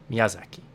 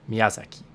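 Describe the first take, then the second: First: All syllables are even, with little emphasis. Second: The same.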